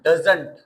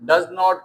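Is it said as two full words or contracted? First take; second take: contracted; full. First: It is said as one contracted word. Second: It is said as two full separate words. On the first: "डज नॉट को डजंट पढ़ना है" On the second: "डज नॉट को"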